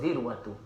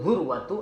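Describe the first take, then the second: First: The first vowel is a front 'i' sound. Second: The first vowel is a rounded 'u' sound. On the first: "wa kasriha" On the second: "baca dhammah iaitu zurwatu"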